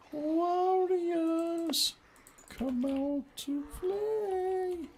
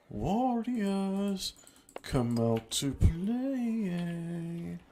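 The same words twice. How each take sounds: First: Much higher, slow eerie singsong call; a creepy falsetto taunt. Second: Higher, very slow singsong taunt. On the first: Taunt in shrill high voice. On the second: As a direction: drag it out teasingly. Taunt repeated slower. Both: Pretend.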